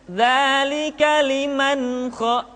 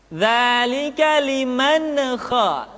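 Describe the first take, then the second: No difference in how they are said.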